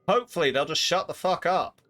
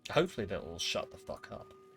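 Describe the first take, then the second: First: It is said at a louder volume. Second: It is said at a quieter, normal volume.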